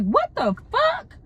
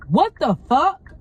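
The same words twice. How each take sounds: First: Shocked reaction. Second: Appalled reaction. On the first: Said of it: "that was my first initial reaction". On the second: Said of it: "Literally, that's what I said". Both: Retold or imitated.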